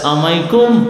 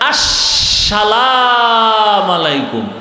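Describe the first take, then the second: First: The greeting is clipped into one short slurred word. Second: The greeting is said in full with a flourish. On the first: "সালাম দেয় সালামাইকুম, মানে তোর উপরে খোদার গজব" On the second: "স্টাইল করে সালাম দেয়"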